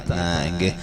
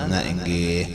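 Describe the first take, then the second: No difference in how they are said.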